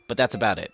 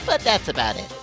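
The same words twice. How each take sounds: First: It is said in the speaker's normal voice. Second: It is said in a Monokuma impression voice.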